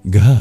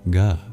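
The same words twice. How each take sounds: First: The consonant is released with a strong breath. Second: The consonant is released without extra breath. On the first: The speaker calls it right. "this is a breathy G, so not just a silent letter. It really does make a sound" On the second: The speaker calls it wrong. "rather than"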